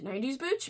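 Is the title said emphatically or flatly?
flatly. The title is said plainly, without extra emphasis. The speaker calls it wrong. "I did not say that the way I usually say bitch"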